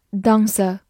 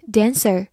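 First: "dancer" with a long British ah and no final R; British pronunciation. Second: "dancer" with the American short-a vowel, as in "man"; American "dancer", not the long British ah; American pronunciation. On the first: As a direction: say "dancer" the British way, as "dahn-suh". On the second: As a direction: say "dancer" the American way, front vowel in the first syllable. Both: Shown as a demonstration. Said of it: "英式发音读作dancer".

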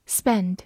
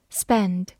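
Both takes have the same delivery.

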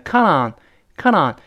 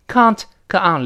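First: "count on" run together as "counnon"; fast linked form. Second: "Count" with its t, then "on"; separate words. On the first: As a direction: swallow the t linking "count on". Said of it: "读快了变成count on". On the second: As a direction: say "count" and "on" apart. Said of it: "连读". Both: Shown as a demonstration.

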